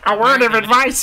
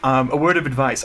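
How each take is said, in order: First: It is read in a put-on, nasal cartoon voice. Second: It is read in the speaker's normal voice.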